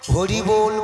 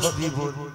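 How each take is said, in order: First: The word is said clearly with an r sound. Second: The word is slurred, the r becoming b. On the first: The speaker can still speak well. "হরিবোল বলতে গিয়ে" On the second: The speaker is old and has lost their teeth. "তখন উচ্চারণ হবে হবিবল হবিবল"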